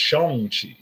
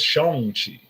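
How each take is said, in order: First: The name is said with a Chinese pronunciation. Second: The name is said with a Chinese pronunciation.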